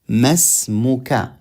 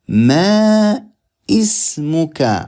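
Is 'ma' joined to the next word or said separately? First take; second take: joined; separate. First: Ma runs straight into smuka as one word. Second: Ma and ismuka are said as separate words. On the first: The speaker calls it right. "we join the meme to the sin" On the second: The speaker calls it wrong. "we don't say like this"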